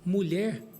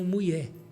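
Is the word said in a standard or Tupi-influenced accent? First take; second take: standard; Tupi-influenced. First: It is said with standard Portuguese sounds. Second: It is said with Tupi-influenced L and R sounds. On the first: "Ao invés de dizer" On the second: "eles falaram português com fonética tupi"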